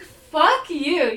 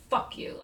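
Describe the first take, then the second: First: Higher, forceful comeback; retold angry retort. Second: Whispered, soft curse; retold seething anger. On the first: Woman answering his date question, retold indignant retort. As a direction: fling it back at him, mildly heated. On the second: Imitating mad coworker cursing her, whispered. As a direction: say it under the breath, almost voiceless. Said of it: "he was so mad".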